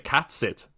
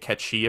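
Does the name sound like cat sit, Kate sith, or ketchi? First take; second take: cat sit; ketchi. First: The first word sounds like cat. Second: It sounds like one word, ketchi. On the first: The speaker calls it wrong. "I pronounced it totally wrong. I used to say cat sit" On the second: The speaker calls it right. "That's how you actually say it. You say Ketchi apparently"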